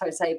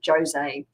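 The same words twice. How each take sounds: First: The name is pronounced the Spanish way. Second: The name is pronounced the Portuguese way. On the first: The speaker calls it wrong. "I would have thought it was Jose" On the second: The speaker calls it right. "but it's actually Jose"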